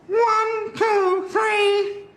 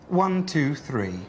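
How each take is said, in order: First: It is said in a nasal voice. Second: It is said in a plain male voice.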